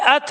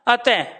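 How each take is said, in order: First: The word ends without a final breathy h sound. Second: The word ends with a final breathy h sound. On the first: "अगर प्यारे बच्चों में यहां पर ये हटा दूं" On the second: "उच्चारण भी बदल गया"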